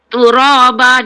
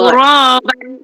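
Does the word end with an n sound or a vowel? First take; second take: vowel; n sound. First: The word ends on a short vowel. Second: The word ends with an n sound. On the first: This is the form used when stopping. "dia jadi satu" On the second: This is the base form when reading on.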